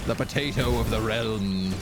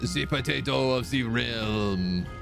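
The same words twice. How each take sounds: First: It is said in the speaker's ordinary accent. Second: It is said in a put-on French accent.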